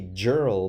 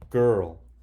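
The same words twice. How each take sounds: First: The word begins with a soft J sound. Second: The word begins with a hard G sound. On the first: The speaker calls it wrong. "it's a soft G, which means it says J. Right here, that should say girl" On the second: The speaker calls it right. "you have to memorize it and say girl"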